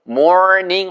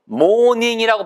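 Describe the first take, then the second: First: It is said with an American English pronunciation. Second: It is said with a Korean-style pronunciation. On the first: The speaker calls it right. "morning 하셔야지" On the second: The speaker calls it wrong. "morning이라고 발음하시면 안 돼요. 왜냐하면 차, 차 중에 morning이란 차가 있잖아요"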